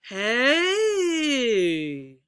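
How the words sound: The pitch rises and then falls. "Let's do our double"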